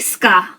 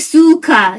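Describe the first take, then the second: First: The u after the s is dropped. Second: The u after the s is fully pronounced. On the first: The speaker calls it right. "you say ska" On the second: The speaker calls it wrong. "you don't say su ka"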